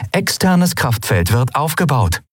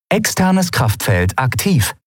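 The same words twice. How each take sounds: First: Even, mechanical ship announcement; ship computer. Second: Slow, mechanical ship announcement; ship computer. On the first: The ship reporting to the crew, mechanical and even. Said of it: "vermeldete das Schiff". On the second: The ship reporting to the crew, slow and mechanical. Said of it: "meldete die Sternenreiter". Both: Acted. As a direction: report it like a machine.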